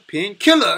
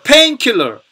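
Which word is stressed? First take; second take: killer; pain. First: The stress falls on the word killer. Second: The stress falls on the word pain. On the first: A killer named Pain. "형용사 명사 구조에서는 그래서 뼈대가 되는 페인 킬러 이렇게 발음하게 됩니다" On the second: A medicine that relieves pain. "명사 구조는 자 painkiller"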